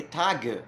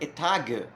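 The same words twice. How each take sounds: First: The g is hard, as in German. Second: The g is hard, as in German.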